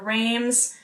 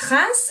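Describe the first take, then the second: First: It is said with English sounds, no nasal vowel. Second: It is said with French sounds and a nasal vowel. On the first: The speaker calls it wrong. "In English, you would pronounce it as maybe Reims" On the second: The speaker calls it right. "in French it's pronounced as Reims, and this random an, like A N sound"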